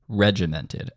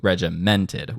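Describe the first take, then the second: First: "Regimented" stressed on the first syllable, REG; front-loaded accent. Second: "regimented" with the stress moved to MENT; misplaced accent. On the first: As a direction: lean on the start of "Regimented", REG-imented. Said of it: "That is a front-loaded accent". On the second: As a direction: punch the third syllable, regi-MENT-ed. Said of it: "as opposed to". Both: Shown as a demonstration.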